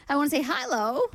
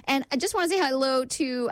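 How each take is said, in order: First: Hello in a vague made-up accent, a bit higher; playful mystery accent on I wanna say hello; odd put-on accent. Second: Said in the usual way. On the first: Shown as a demonstration. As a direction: throw on some unplaceable accent for the greeting. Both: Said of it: "I don't know what that accent was".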